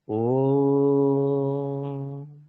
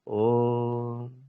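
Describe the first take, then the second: First: The vowel is held only a moderate time. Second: The vowel is soft, barely audible nearby. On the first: "ह्रस्व, मतलब आपको सांस गहरी नहीं लेनी है" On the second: "प्लुत, आपके आसपास ही मतलब समझ सम, सुनाई दे"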